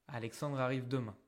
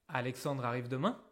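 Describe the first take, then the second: Both takes have the same delivery.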